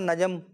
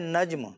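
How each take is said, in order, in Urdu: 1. آخری دو حروف کے درمیان ایک مصوتہ ڈالا جاتا ہے۔ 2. آخری دو حروف ایک ساتھ جڑے ہوئے ہیں۔ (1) "جیم کے اوپر زبر پڑ جاتے ہیں" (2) "ان کا نام ہے نجم"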